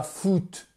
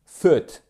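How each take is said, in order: First: "foot" with a tense French oo; wrong French FOOT. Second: "foot" short and louder, lax u near uh; correct short-vowel FOOT. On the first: Teacher showing the mistake, "foot" with a French oo. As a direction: tighten "foot" into French "foute". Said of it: "c'est pas foot". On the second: Teacher correcting learners, "foot" short, lax and firm. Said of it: "et c'est pas foot". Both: Shown as a demonstration.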